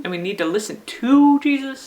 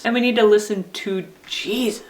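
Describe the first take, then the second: First: "to" stretched and punched before "Jesus"; stress on TO. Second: "Jesus" held back, then stressed. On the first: Teacher reminding friends for this week, stress on "to". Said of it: "if we stress the second word". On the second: Teacher reminding friends for this week, stress on "Jesus". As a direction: land the weight on "Jesus". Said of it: "if we stress the last word". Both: Shown as a demonstration.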